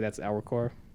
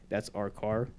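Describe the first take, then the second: First: The R sounds are soft and light. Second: The R sounds are strongly over-pronounced. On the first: "Most people would say that's our car" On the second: "So like say that's our car"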